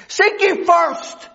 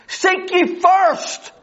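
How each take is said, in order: First: "Seek ye first" drawn out slowly, each word weighted; slow emphasis. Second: "Seek ye first" slower still, weight on "first"; slow emphasis on first. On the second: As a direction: stretch out "Seek ye first", landing on "first". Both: Acted. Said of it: "repeated for emphasis".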